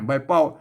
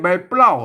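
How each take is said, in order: First: The p is said without an l after it. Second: The p is followed by an l sound. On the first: The speaker calls it right. "อ่านว่าใบเป้าเนี่ยใบเป้าไม่ใช่" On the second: The speaker calls it wrong. "ไม่ใช่ใบเปล้านะครับ"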